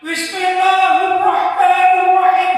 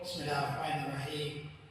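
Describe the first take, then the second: First: It is recited loudly, almost shouted. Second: It is recited softly and quietly. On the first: It may disturb people who are sleeping. The speaker calls it wrong. "Gak perlu diteriakkan" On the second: Only nearby people can hear it. The speaker calls it right. "hendaklah pelan-pelan saja ... Kan cukup begitu ya"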